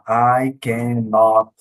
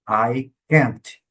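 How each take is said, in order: First: The negative is said in full as cannot. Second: The negative is contracted to one syllable, can't. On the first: The speaker calls it wrong. "Você não vai ouvir também um falante nativo falar I cannot" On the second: The speaker calls it right. "Ele vai falar I can't"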